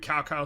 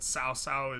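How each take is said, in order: First: The name is said with Americanized sounds. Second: The name is said with Chinese-like sounds. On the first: The speaker calls it wrong. "like the Americanized pronunciation" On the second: The speaker calls it right. "more correct"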